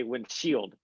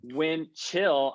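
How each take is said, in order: First: "windshield" with a SH and a D at the end; misheard word. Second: Said in the usual way. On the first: Shown as a demonstration. Confessing her old mistake, "windshield" for "wind chill". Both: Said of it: "I used to say windshield".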